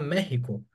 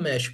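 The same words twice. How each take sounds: First: It is pronounced the Spanish way. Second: It is pronounced the Portuguese way. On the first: The speaker calls it right. "A gente fala México" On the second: The speaker calls it wrong. "a gente não fala México em espanhol"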